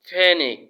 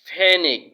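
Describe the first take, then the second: The two takes are said the same way.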